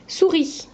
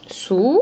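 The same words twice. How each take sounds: First: Said in the usual way. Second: "Souris" broken into two separate syllables, long pause between; split into syllables. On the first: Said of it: "première syllabe". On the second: Shown as a demonstration. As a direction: say "Souris" syllable by syllable, each one held apart. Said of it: "on en enlève sou, il reste ri". (« Souris » découpé en syllabes, avec une pause)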